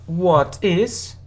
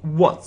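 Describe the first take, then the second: First: Both words are said in full. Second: The two words are joined into one. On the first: "you can ask what is" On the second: "normally, so in spoken English, we say what's"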